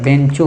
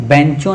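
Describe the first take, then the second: First: बेंचों with a closer "ben" vowel; correct pronunciation. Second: बेंचों with an open "bain" vowel and nasal ending; wrong pronunciation. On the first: Teacher correcting the word, बेंचों with a closed "ben" vowel. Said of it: "होता है". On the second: Teacher quoting the student's misreading, बेंचों as open "bain-chon". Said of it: "नहीं होता है". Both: Shown as a demonstration.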